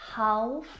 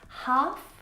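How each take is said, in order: First: The L sound is pronounced. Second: The L sound is silent. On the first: The speaker calls it wrong. "not half" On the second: The speaker calls it right. "silent L"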